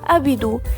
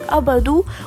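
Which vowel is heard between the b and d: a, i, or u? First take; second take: i; a. First: An i vowel is heard between b and d. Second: An a vowel is heard between b and d. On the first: "بالكسرة" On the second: "بالفتحة"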